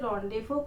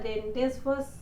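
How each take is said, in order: First: It is said as rondevo, z and s silent. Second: It is said as spelled, sounding z and s. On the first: The speaker calls it right. "लेकिन इसे रोंडेवो कहा जाता है" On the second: The speaker calls it wrong. "यहाँ रेंडेसवस आपको देखने से लगेगा"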